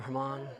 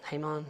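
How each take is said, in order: First: "Haman" as huh-MON, stress on the second syllable; "Haman" said softly as huh-MON; alternative pronunciation. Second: "Haman" as HAY-mon, first syllable like "hay"; "Haman" said softly as HAY-mon; pronunciation query. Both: Shown as a demonstration. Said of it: "Is that actually how you pronounce it?".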